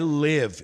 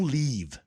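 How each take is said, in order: First: The vowel is short, as in 'give'. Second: The vowel is long, as in 'leave'. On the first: The speaker calls it right. "a pronúncia é live" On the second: The speaker calls it wrong. "não leave"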